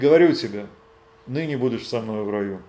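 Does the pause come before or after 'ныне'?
before. The pause comes before 'ныне'.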